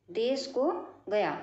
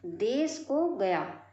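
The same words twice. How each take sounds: First: देश को गया said again slowly, word by word; slow repeat. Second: Said in the usual way. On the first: Shown as a demonstration. Teacher repeating the example for students, slowly. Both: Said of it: "दूसरा शब्द है देश को गया".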